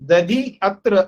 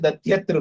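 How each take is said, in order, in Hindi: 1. 'अत्र' से पहले इकार बना रहता है। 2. इकार यकार बन जाता है, और दोनों शब्द जुड़ जाते हैं। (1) "दधि अत्र ऐसा भी बोल सकते हैं" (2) "इकार की जगह पर ... यकार बोल देगा"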